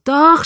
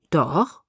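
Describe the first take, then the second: First: High, loud exasperated "Doch"; exasperated, loud giving in; groaned. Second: Low-key solemn "Doch"; earnest, understated promise. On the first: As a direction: groan out DOCH, raised and drawn. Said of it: "stöhnte ich". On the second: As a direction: say DOCH gravely, without raising the voice. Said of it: "versprach er feierlich". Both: A narrator's reading.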